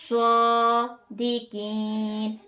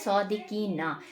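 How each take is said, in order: First: The word ends on a consonant, vowel dropped. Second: The word ends with a final vowel sound. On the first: The reading stops at this word. "हम यहाँ पर वफ करना चाह रहे हैं" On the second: The reading continues without stopping. "ये जो ये सर्कल है, ये नहीं है यहाँ पर"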